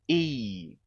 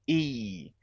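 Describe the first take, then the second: Both takes have the same delivery.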